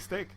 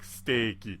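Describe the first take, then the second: First: The word ends with a bare consonant. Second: The word ends with an added vowel sound. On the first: Local listeners cannot understand it. The speaker calls it wrong. "people won't know what you're saying when you say steak" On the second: Local listeners can understand it. The speaker calls it right. "you have to pronounce it like steaky"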